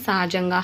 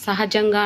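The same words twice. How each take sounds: First: సహజంగా as "saajangaa"; h dropped. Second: Said in the usual way. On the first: Shown as a demonstration. Teacher showing a dropped letter, సహజంగా without h. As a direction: merge the first vowels of సహజంగా, skipping the h. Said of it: "హా అనేది ఎగిరిపోతుంది". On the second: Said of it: "అనే అంశాన్ని".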